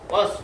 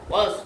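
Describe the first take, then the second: First: The vowel is kept short. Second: The same.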